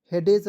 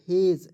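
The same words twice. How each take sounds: First: हेडेज in two syllables, D sounded; wrong pronunciation. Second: हेज as one syllable, D silent; correct pronunciation. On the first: Teacher warning students off, misread हेडेज with sounded D. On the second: Teacher correcting students' reading, silent-D हेज. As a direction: say हेज with no D sound. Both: Shown as a demonstration. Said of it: "हेडेज नहीं पढ़िएगा".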